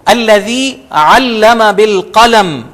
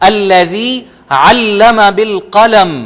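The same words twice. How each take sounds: Both takes have the same delivery.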